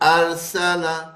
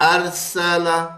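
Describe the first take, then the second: First: The word ends with a short a vowel. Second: The same.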